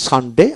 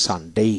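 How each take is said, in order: First: সানডে in British style, ending on a short e; British model of সানডে with a plain final vowel; British pronunciation. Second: সানডে in American style, ending glided to "ey"; American model of সানডে with long rising end; American pronunciation. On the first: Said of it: "এটা হলো British উচ্চারণ". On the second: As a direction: say সানডে as "san-dey", stretching the last vowel. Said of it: "American উচ্চারণ". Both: Shown as a demonstration.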